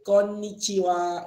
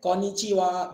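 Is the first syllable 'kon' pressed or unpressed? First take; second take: pressed; unpressed. First: The first syllable is pressed slightly but softly. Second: The first syllable is said without any pressing. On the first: The speaker calls it right. "Dia ditekan sikit. ... Dia lembut tapi tekan" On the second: The speaker calls it wrong. "Dia bukan konnichiwa"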